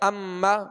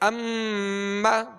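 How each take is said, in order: First: The doubled m is short, without a nasal hum. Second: The doubled m is held long, with a nasal hum. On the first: The speaker calls it wrong. "अगर इसमें गुन्ना नहीं करेंगे दोहरा तो पढ़ा जाएगा" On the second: The speaker calls it right. "गुन्ना करने की वजह से इसमें ज्यादा देर लगी"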